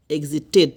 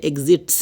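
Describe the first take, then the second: First: "এক্সিটেড" with a full second syllable, ek-zi-TED; correct -ted ending. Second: "এক্সিটস" squeezed into ek-zits, no "ted"; wrong clipped ending. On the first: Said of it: "এখানে এক্সিটস এরকম হবে না". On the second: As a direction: show the mistake "এক্সিটস", ending in a consonant cluster. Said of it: "এরকম হবে না কিন্তু". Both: Shown as a demonstration.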